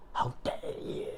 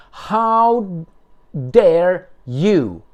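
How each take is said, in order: First: Breathy whispered how dare you; mock whisper of outrage; whispered echo. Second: Indignant, higher and louder; loud mocking how dare you; mock outrage. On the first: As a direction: hiss the words back in a whisper. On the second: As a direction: hurl it back as a mock accusation. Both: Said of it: "Remember that?".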